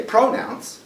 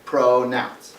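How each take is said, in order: First: Pronounce, with PRO wrongly stressed; stress on first syllable. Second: Pronounce, drawn out with NOUNCE stressed; stress on second syllable. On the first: Teacher showing what we don't say, pronounce stressed on PRO. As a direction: hit PRO in pronounce instead of NOUNCE. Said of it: "We don't say pronounce". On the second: Teacher demonstrating word stress to students, pronounce with NOUNCE stressed. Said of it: "we stress the second syllable". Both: Shown as a demonstration.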